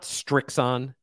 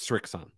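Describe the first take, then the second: First: A t sound is added after the s. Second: The name is said with no t sound. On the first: The speaker calls it wrong. "There's no T in there. It's not Strixon" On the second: The speaker calls it right. "It's Srixon"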